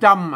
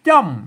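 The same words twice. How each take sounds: First: The syllable is said on a level mid tone. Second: The syllable is said on a falling tone. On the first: "จำเสียงสามัญนะฮะ" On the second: "ใส่ไม่โท... อันนี้มันเสียงอันโทปกติ"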